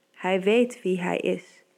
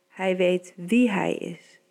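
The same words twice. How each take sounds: First: Slow, with "weet" pressed hardest; stress on weet. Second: Slow, "wie" pressed, falling at the end; stress on wie. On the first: Preacher to the congregation, slow with the weight on "weet". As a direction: lean slowly on "weet" in "Hij weet wie hij is". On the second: Preacher echoing his line to the congregation, slow, leaning on "wie". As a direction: shift the weight onto "wie" in "Hij weet wie hij is". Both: Shown as a demonstration.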